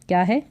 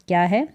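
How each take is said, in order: No difference in how they are said.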